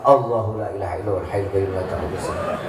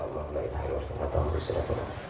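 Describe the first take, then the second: First: Recited aloud, quick and chanting; a bit louder. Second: Fast, whispered murmur of the verse; quiet recitation. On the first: Husband raises his voice reciting against wife's nagging. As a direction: push the verse out more audibly. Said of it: "Agak dikencengin suaranya". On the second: Husband reads verse quietly while wife nags, whispering. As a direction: rattle the prayer off under the breath. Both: Shown as a demonstration.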